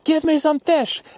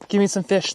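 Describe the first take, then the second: First: It is yelled. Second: It is said louder.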